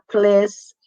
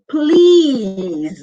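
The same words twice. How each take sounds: First: The vowel is short. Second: The vowel is long. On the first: The speaker calls it wrong. "it's not please" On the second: The speaker calls it right. "with a long E"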